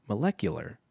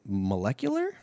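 First: Molecular said flat with a firm falling end; a final, falling molecular; settled fall. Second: Molecular asked with a questioning rise; a rising, doubting molecular; unsure rise. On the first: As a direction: land molecular with a confident fall. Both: Shown as a demonstration. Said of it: "Molecular biologist".

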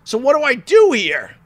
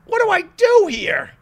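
First: Said in the usual way. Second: Much higher, mock-helpless squeak; repeated question in a high mock-helpless voice; exaggerated puzzlement. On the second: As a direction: throw up your hands comically. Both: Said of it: "repeated question".

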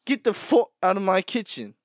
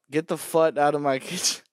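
First: Higher, louder chef roar; his own take of the line; louder chef yell. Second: Says fut with a British twist; mock British fut. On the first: Yelling at someone in his kitchen. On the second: Laughing mock British chef. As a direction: get the fut out, in British accent. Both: Shown as a demonstration. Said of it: "why do they say "fut".

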